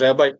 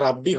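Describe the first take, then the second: First: It is said as 'rebai' with an 'eye' ending. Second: It is said as 'rabbi' with a short ending. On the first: The speaker calls it right. "এটা হচ্ছে রেবাই" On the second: The speaker calls it wrong. "এটা উচ্চারণটা রাব্বি হবে না"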